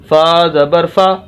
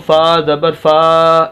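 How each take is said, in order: First: The final vowel is kept short. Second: The final vowel is stretched out long. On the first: The speaker calls it right. "बस लंबा नहीं करना" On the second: The speaker calls it wrong. "ऐसे नहीं करना"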